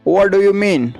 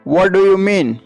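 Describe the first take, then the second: Both takes have the same delivery.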